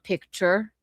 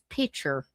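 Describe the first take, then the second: First: It is said in a General American accent. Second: It is said in a Southern American accent. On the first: "it's not picture" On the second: "In the South, it's picture"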